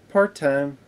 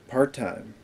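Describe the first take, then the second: First: It is said with a less final ending. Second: It is said with a firm, final ending. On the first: The speaker calls it wrong. "But in the movie, he's like" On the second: The speaker calls it right. "in the trailer, he's like"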